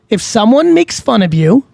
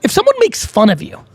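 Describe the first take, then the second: First: Measured, spelled-out delivery; deliberately slow. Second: Said in the usual way. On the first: Shown as a demonstration. Advising someone mocked for their accent, deliberately slow. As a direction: say it slowly to drive the point home. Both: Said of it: "I'm gonna say this slow".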